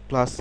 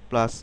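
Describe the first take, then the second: No difference in how they are said.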